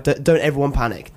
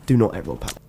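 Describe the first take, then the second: First: Said in the usual way. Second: Low, grave mock-serious voice; mock dramatic announcer. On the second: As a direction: play it like a dramatic warning.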